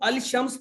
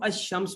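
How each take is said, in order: First: The L sound of the article is clearly pronounced. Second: The L merges into a doubled sh sound. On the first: The speaker calls it wrong. "अल शम्स बोलते हैं या अशम्स बोलते हैं?" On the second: The speaker calls it right. "इसको हम अशम्स बोलते हैं।"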